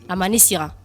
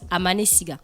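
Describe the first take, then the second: First: The final syllable begins with an r sound. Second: The final syllable begins with a g sound. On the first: The speaker calls it right. "on prononce Aman Sira" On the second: The speaker calls it wrong. "c'est écrit ... Siga"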